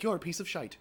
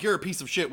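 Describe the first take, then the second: First: Higher mock British lilt; UK accent. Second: Said in the usual way. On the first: Shown as a demonstration. Translator output for a UK listener, British accent. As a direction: lightly put on a UK accent with "shite". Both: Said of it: "talking to someone in the U K".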